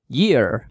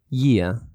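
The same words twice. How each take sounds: First: The final R is pronounced. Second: The final R is silent. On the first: The speaker calls it wrong. "don't say year" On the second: The speaker calls it right. "we don't pronounce the R ... So you say year"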